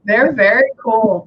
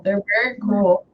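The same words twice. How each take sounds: First: Slow, louder stress on "They're very cool"; slow emphatic praise. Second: Said in the usual way. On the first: Shown as a demonstration. Medium to sitter, slow emphatic stress. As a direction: lean on "They're very cool" slowly and firmly.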